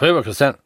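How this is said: It is said in a mumbled regional dialect. "in meiner Region ... die nuscheln alles weg"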